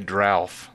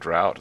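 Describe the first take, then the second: First: The word ends with a 'th' sound. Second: The word ends with a plain 't' sound. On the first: The speaker calls it wrong. "They say drouth" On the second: The speaker calls it right. "instead of saying drought"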